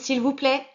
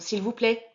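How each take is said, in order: First: It is said the loudest. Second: It is said somewhat louder.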